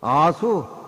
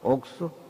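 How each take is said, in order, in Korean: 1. 첫 음절은 'a'로 발음해요. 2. 첫 음절은 'ok'로 발음해요. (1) "아수, 그럼 못 써" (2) "옥수로 발음을 해"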